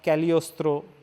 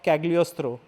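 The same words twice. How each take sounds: First: The G sound is silent in the word. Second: The G sound is pronounced in the word.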